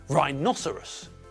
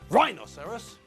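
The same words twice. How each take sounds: First: The stress is on the second syllable. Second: The stress is not on the second syllable. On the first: The speaker calls it right. "the stress comes on the second syllable. Rhinoceros" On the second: The speaker calls it wrong. "not rhinoceros"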